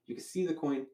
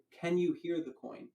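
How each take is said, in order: First: "You can see the coin" as a statement, pitch lifted on "see"; told, not asked. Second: "Can you hear the coin" with pitch raised on "Can"; emphasized question. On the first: Magician telling the spectator before the question, as a statement. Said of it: "I tell him". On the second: Magician asking the spectator a moment later, question emphasized. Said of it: "And I really emphasize that". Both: Shown as a demonstration.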